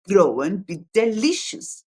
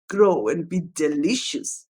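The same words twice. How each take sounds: First: It is said in a normal voice. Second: It is said in a deep old man's voice.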